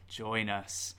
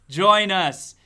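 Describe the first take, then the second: First: Soft eerie join us; eerie whisper. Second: Loud booming join us; loud eerie call. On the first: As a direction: lure them in, hushed and creepy. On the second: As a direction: call them in, big and creepy. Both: Acted. Spooky repeated invitation.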